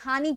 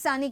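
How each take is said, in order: First: The word begins with an h sound. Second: The word begins with an s sound. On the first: "Kathiawadi હોય એ હાની કહેતું હોય" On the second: "સુરતી લોકો એ સાની કહેતું હોય"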